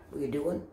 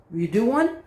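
First: Softer, lower parroting echo; deadpan lower copycat; mockingbird mimicry. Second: Said in the usual way. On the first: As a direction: echo the question back like a mimic bird. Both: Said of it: "I'm a mockingbird".

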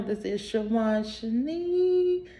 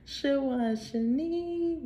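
First: Said in the usual way. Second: Name repeated higher and softer; soft high echo of Shanique. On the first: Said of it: "Welcome back to my channel". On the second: Real, not acted.

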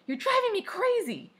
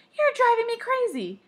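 First: High, loud exasperated shout. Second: Very loud, high mimicking yell; shouted back. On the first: Sister shouting at her brother in a squabble, shouted. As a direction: yell it up high at a sibling. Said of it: "And I shouted". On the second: Brother shouting back at his sister, louder shout. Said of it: "And Sam shouted". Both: A narrator's reading.

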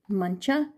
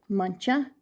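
The two takes are said the same way.

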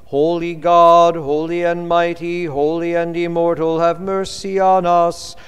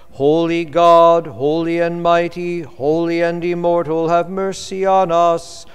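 No difference in how they are said.

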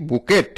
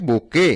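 First: বুকেট with the final T sounded; mispronounced বুকেট. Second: বুকে with a silent T; correct pronunciation. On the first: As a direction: say বুকেট as spelled, ending in a hard T. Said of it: "বুকেট উচ্চারণটাও সঠিক নয়". (বুকেট, শেষে ট উচ্চারণ করে) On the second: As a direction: say বুকে ending on an open "ay". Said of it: "সঠিক উচ্চারণ হচ্ছে". (বুকে, শেষের ট অনুচ্চারিত) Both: Shown as a demonstration.

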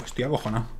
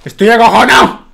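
First: Quiet admission. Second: Much louder, higher frightened yell; scared shout. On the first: Scared after the fire. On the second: Streamer admitting his fear to viewers, loud yell. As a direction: blurt out your fear at full volume. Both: Real, not acted.

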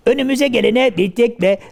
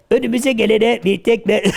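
Both takes have the same delivery.

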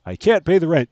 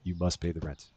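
First: High, loud distressed heroine cry; melodrama damsel. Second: Low, soft menacing villain voice; melodrama villain. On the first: Melodrama: heroine pleads over rent. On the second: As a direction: growl it like a mustache-twirling landlord. Melodrama: villain demands the rent. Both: Pretend.

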